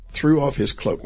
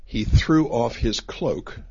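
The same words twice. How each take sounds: First: "threw off his cloak" repeated higher and louder, punching "threw"; emphatic repeat. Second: Slow, deliberate reading of "He threw off his cloak"; slow scripture reading. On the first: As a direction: lift and hit "threw" to flag the clue. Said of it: "that's an odd thing to tell us". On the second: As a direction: read the verse out slowly. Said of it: "It says there". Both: Shown as a demonstration.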